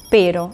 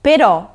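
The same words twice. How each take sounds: First: "pero" con la fuerza en la primera sílaba, PE-ro; acento en la e. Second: "però" con la fuerza en la última sílaba, pe-RÒ; acento en la o. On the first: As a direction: say "pero" stressed on the e, falling away on the o. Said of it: "atención a la pronunciación, no es". ("pero" acentuado en la e, como en español) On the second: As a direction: say "però" with the stress landing on the final o. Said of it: "con el acento en la o". ("però" acentuado en la o final) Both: Shown as a demonstration.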